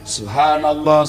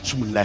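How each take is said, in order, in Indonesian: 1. Frasa ini diucapkan utuh, setiap suku katanya jelas. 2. Frasa ini diucapkan terburu-buru dan digumamkan, suku katanya sedikit. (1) "Perjelas, ucapkan dengan baik" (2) "Tidak jelas apa yang Bapak ucapkan"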